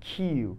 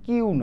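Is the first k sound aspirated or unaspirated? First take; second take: aspirated; unaspirated. First: The k is said with a puff of air. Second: The k is said without a puff of air. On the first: The speaker calls it right. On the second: The speaker calls it wrong.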